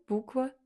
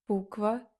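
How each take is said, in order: No difference in how they are said.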